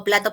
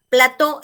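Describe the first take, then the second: First: "plato" stressed on PLA; stress on first syllable. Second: "Plató" stressed on TÓ; stress on last syllable. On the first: Teacher means the dish, stressing PLA in "plato". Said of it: "eso sería la menajería". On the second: Teacher names the TV set, stressing TÓ in "Plató". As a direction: land firmly on the final syllable of "Plató". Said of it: "es un set de televisión". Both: Shown as a demonstration.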